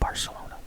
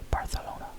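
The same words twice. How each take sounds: First: The name is said with an American accent. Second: The name is said with a local Spanish accent. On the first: This is how the speaker normally says it. "I don't have that accent, so I think it'd be weird if I said it that way. So I call it" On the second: This is how the local people say it. "as they pronounce it, I believe"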